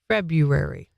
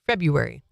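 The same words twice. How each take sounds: First: It is said slowly. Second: It is said at normal speed.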